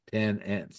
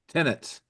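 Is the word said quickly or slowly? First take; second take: slowly; quickly. First: It is said slowly as two separate words. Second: It is said at normal speed as one word. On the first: The number of ants. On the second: Renters living in the house.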